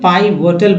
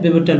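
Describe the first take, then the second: First: The first syllable has a long 'pie' vowel. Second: The first syllable has a short 'pih' vowel. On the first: The speaker calls it wrong. "कुछ लोग पाई वोटल बोलते हैं, गलत है" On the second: The speaker calls it right. "पिवोटल बोलना है"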